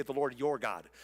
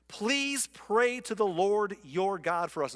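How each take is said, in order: First: Your leaned on, the rest lower; stress on your. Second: Said in the usual way. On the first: Shown as a demonstration. Pastor pointing out their wording, stress on your. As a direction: point up the word your, Lord your God. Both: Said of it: "Notice they say".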